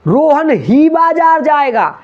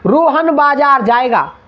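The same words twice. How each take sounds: First: ही and बाजार said high, loud and slow; teacher punches ही in "Rohan ही बाजार जाएगा"; stress on ही. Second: Said in the usual way. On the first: Shown as a demonstration. Teacher demonstrating stress on ही for students, emphatic. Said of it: "जब शब्द पे जोर डालते हैं". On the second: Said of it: "और example देखो".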